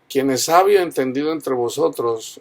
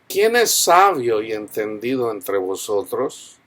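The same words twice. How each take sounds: First: It is said with statement intonation. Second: It is said with question intonation.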